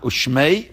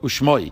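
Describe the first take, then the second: First: The last vowel sounds like 'ay'. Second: The last vowel sounds like 'oy'. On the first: It is the pronunciation the Rebbe avoided for this word. "He would say not ushmei" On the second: It is the pronunciation the Rebbe used for this word. "but ushmoi"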